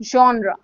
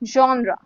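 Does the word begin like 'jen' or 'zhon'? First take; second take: zhon; zhon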